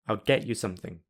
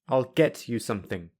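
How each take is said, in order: First: The t is replaced by a glottal stop. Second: The t and y stay separate sounds. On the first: "I will say them with the glottal plosive" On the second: "I will say them without linking"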